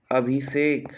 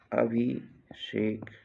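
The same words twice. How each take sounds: First: Said in the usual way. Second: "Abhishek" slow, pause after अभि; split slowly for dictation. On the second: Shown as a demonstration. Teacher dictating a spelling, Abhishek slowly in two parts.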